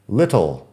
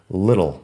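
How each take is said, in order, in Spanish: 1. La T se pronuncia de forma nítida y cuidadosa. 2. La T es suave, suena como una D. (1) "acabo de decirlo de una forma poco natural porque estoy intentando pronunciar bien para el podcast" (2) "en inglés americano la T es más suave. Así que yo personalmente digo little"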